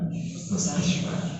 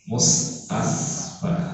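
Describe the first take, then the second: First: The middle consonant is an sh sound. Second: The middle consonant is a plain s sound. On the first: The speaker calls it right. "Harusnya apa?" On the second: The speaker calls it wrong. "dahului dengan mustasfa"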